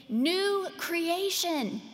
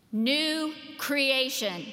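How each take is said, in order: First: New creation called out high and slow, like a coach's shout; emphatic proclamation. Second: New creation spoken slowly, each word weighted; slow emphasis. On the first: Preacher proclaiming Paul's main point to the congregation, emphatic and high. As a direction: ring out New creation higher, drawn out. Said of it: "It's the coach's shout". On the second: Preacher reading Paul's Greek to the congregation, slow and weighty. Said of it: "Just those two words, all caps". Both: Shown as a demonstration.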